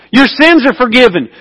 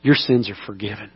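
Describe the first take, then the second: First: Your sins are forgiven ringing out high and strong; proclaimed. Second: Your sins are forgiven said much lower and much softer; soft reassuring pardon; tender. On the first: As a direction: declare it like a verdict. Climax of healing story. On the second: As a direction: let it land gently, almost hushed. Repeated softly as Jesus' words. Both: Acted.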